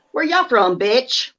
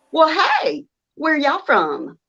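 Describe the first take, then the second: First: Sweet Southern voice turning sassy; southern accent. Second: Exaggerated Southern accent, sugary greeting. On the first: Retold or imitated. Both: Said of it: "I have to accentuate my accent".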